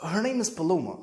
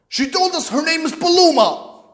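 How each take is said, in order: First: Soft, tentative admission; nervous. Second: High, indignant accusation; angry father. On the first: Son naming his girlfriend to his father, timid and soft. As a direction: own up to it quietly after a hesitation. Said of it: "Then I start sound like we nervous". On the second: Father repeating the girlfriend's name to his son, indignant. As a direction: throw the name back at him, high and outraged. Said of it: "I know the tone in his voice". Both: Retold or imitated.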